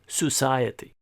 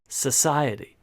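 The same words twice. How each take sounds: First: It is said with a foreign-sounding pronunciation. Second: It is said with a native-sounding pronunciation. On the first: The speaker calls it wrong. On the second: The speaker calls it right.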